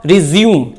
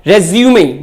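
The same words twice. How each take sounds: First: Resume said "ri-ZYOOM", stress on second syllable; verb pronunciation resume. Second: Resume said "REZ-yoo-may", stress on first syllable; noun pronunciation resume. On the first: Teacher giving verb pronunciation resume, said ri-zyoom. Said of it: "अगर ये verb है तो इसका correct pronunciation होगा". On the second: Teacher giving noun pronunciation resume, said rez-yoo-may. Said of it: "अगर ये noun है तो इसका करेक्ट प्रोनाउंसिएशन होगा". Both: Shown as a demonstration.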